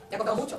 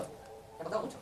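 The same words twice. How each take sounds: First: Louder, pressing the point home; emphatic. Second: Softer, sinking the point in; softly repeated. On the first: Preacher urging the congregation, emphatic and louder. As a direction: hit it hard to the congregation. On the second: Preacher echoing his own words to the congregation, softer. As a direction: let it drop to a near hush. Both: Real, not acted.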